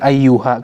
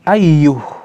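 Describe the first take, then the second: First: The word ends with a final a vowel. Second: The word ends on the h, with no vowel. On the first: The speaker calls it wrong. "bukan ayyuha" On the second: The speaker calls it right. "Kalau mau berhenti bagaimana? Ayyuh"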